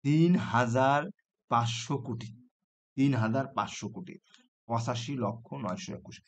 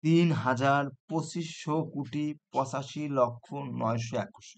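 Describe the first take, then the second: First: তিন হাজার, পাঁচশো, কোটি read as separate chunks with long pauses between; chunked reading. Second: Teacher slowly reading out the full number to students. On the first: Teacher showing students how to count the number in groups. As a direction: break the number into its place-value groups, pausing after each. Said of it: "তুমি সবসময় counting করবা". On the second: Teacher reading the full number aloud slowly to students. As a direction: read the whole number slowly in one go. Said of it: "এই, এইটা দেখো". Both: Shown as a demonstration.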